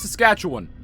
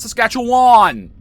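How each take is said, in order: First: Some sounds in the name are reduced. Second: Every letter in the name is fully pronounced. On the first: This is how people who live there say it. The speaker calls it right. "it's Saskatchewan" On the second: This is how outsiders say it. The speaker calls it wrong. "not Saskatchewan"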